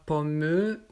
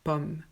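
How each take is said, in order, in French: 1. Après pomm, on prononce une voyelle finale. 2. Ça finit sur le m, rien après. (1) "On ne dit pas pommeux" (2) "Non, pomme"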